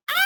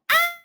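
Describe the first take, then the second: First: Short loud scream, with the body in mind; loud scream again. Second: Short loud open-mouthed scream. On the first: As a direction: scream on three while holding the thought. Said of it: "this time when you scream". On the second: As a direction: let out one loud scream on three. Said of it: "together we're going to scream loudly". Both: Shown as a demonstration.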